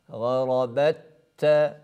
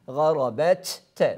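First: The two t sounds merge into one doubled t. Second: The two t sounds are pronounced separately. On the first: The speaker calls it right. "İkinci ta harfini şeddeliyoruz. Yani idgam ediyoruz" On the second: The speaker calls it wrong. "garabet, te şeklinde telaffuz etmek fevkalade zor"

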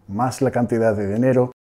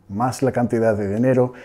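No difference in how they are said.

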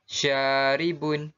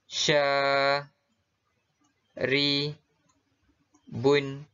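First: The syllables are joined into one smooth word. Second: Each syllable is said separately with pauses.

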